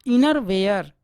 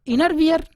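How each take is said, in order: First: inner वेयर with a clear ए sound; teacher giving the right inner वेयर; correct pronunciation. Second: inner वियर said higher and louder as the wrong form; mock the common mistake वियर; teacher showing the error inner वियर; wrong pronunciation demo. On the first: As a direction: say वेयर, not वियर. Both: Shown as a demonstration. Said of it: "गलत।".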